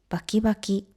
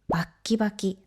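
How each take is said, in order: First: The word flows without a break after ba. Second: A short held stop follows the first ba.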